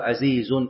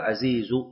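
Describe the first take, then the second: First: The word ends with an added -un nunation. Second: The word ends in -u without nunation. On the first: The speaker calls it wrong. "لا يقال عزيز" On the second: The speaker calls it right. "بالضم من غير تنوين لضرورة النظم"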